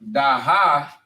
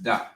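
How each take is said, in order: First: The final 'ha' syllable is pronounced. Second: The final 'ha' syllable is dropped. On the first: The speaker calls it wrong. "instead of da ha" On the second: The speaker calls it right. "it would be just da"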